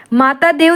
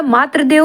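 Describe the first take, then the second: First: माता with long -taa before देव; wrong form. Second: Said in the usual way. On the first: Shown as a demonstration. Teacher rejects a misspelling, माता ending in long aa. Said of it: "माता देव नहीं होता". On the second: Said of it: "मातृ देव होता".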